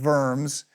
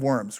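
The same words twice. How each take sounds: First: The word starts with a V sound. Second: The word starts with a W sound. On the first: "you're supposed to say it with the V" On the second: "I guess if you're in junior high, that's pretty funny"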